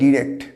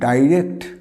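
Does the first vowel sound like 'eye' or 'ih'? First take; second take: ih; eye. First: The first vowel sounds like 'ih'. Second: The first vowel sounds like 'eye'. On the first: "আবার কেউ উচ্চারণ করে ডিরেক্ট" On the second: "এটাকে আমরা বলি কি ডাইরেক্ট"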